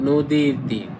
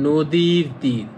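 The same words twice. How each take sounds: No difference in how they are said.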